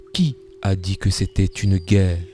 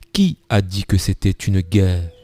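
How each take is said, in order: No difference in how they are said.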